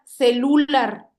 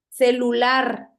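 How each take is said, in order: First: The stress is on the second-to-last syllable. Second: The stress is on the last syllable. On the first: The speaker calls it wrong. "Si fuera grave, sonara celular" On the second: The speaker calls it right. "es una palabra aguda. La tiene en la última sílaba"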